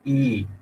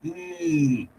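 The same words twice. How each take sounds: First: The vowel is held about twice as long. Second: The vowel is stretched out very long. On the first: "दो मात्राओं तक लंबा खींचना है तो मैं ई कर सकता हूँ" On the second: "तीन से ज्यादा मात्राओं तक इस ई को खींचना है, एक्स्ट्रा लॉन्ग करना है"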